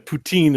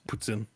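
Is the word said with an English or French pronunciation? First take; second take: English; French. First: It is said with an English-style pronunciation. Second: It is said with a French-style pronunciation. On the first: The speaker calls it wrong. "poutine is not" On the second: The speaker calls it right. "It's Putin. So Putin is French word"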